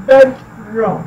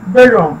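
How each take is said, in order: First: bedroom as bed, pause, room; slower, separated bedroom; two separate syllables. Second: bedroom joined up, weight on BED; BED-room in one go, falling on the second half of bedroom; stress on BED. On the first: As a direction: split bedroom into two distinct halves. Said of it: "टू syllables हैं". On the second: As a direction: hit the first syllable of bedroom. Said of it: "बेड पे stress किया जाता है". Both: Shown as a demonstration.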